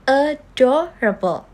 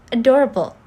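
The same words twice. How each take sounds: First: Slow "adorable", a-do-ra-ble; syllable by syllable. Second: Said in the usual way. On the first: Shown as a demonstration. Teacher showing a four-syllable word, "adorable" slowly syllable by syllable. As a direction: draw "adorable" out in separate beats. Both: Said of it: "that has four syllable".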